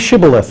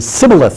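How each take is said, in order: First: The word begins with an 'sh' sound. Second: The word begins with an 's' sound. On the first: The speaker is a native Hebrew speaker. The speaker calls it right. "say shibboleth" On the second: The speaker is an invader. The speaker calls it wrong. "because they couldn't pronounce it"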